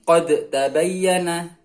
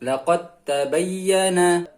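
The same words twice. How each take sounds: First: "qad tabayyana" with a bounced d before t; echoed dal. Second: "Laqad tabayyana" slowly, as laqat-tabayyana; dal merged into ta. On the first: Teacher shows the wrong reading, dal echoed separately. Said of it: "Nah, jadi bukan". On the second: Teacher corrects, dal gone straight into ta. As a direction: drop the d of "Laqad" into a doubled t. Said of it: "dalnya hilang langsung masuk ke huruf ta". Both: Shown as a demonstration.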